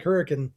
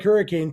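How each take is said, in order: First: Hurricane with a reduced "kun" ending; local pronunciation. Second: Hurricane with a full "cane" ending; spelling pronunciation. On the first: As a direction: say hurricane as "HURR-ih-kun", last vowel swallowed. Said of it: "pronounced like hurricane". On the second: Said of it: "Spelled like hurricane". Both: Shown as a demonstration.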